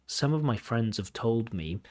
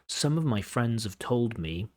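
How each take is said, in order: First: The word have is reduced and unstressed. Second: The same.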